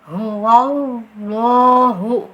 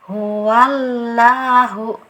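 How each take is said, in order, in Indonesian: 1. Bunyi w diselipkan sebelum 'lah'. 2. 'lah' diucapkan tipis, bukan tebal. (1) "itu ada wawunya ... itu yang keliru ya" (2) "punyanya tarkik lah"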